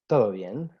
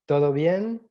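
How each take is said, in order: First: The voice falls at the end. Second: The voice rises at the end. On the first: It states that everything is fine. "the answer is" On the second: It asks whether everything is fine. "a common question"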